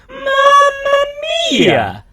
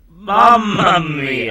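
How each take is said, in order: First: It is said in an imitation of Mario's voice. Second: It is said in the speaker's normal voice.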